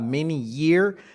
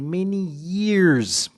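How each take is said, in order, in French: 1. Le s final de years est muet. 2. Le s final de years est prononcé. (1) "ce n'est pas many years" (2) "c'est many years. Prononcez les S à la fin des noms qui sont au pluriel"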